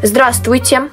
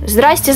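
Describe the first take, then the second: First: The greeting is said with every syllable. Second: The greeting is shortened, dropping middle sounds. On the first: The speaker calls it right. "Здравствуйте, правильно говорить" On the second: The speaker calls it wrong. "а не здрасте"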